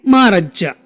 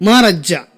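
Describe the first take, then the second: The two takes are said the same way.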